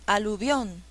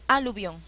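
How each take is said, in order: First: The stress is on the last syllable. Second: The stress is on the first syllable. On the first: The speaker calls it right. "ahí sí" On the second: The speaker calls it wrong.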